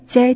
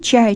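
First: The word begins with a 'ts' sound. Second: The word begins with a 'ch' sound. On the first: This is how dialect speakers say it. "эти носители этих говоров скажут" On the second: This is the standard pronunciation. "где мы обычно говорим «че»"

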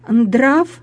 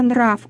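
First: A d sound is inserted between n and r. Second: The n is followed directly by r. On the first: It is a colloquial pronunciation. The speaker calls it wrong. "бабушки некоторые говорят" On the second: It is the standard pronunciation. The speaker calls it right. "вместо"

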